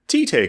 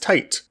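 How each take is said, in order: First: The name is read the Japanese way. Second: The name is read the English way. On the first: "that's not how Japanese words and Japanese names are pronounced when they're spelled that way" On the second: "When I was a kid, I would pronounce it as Tite"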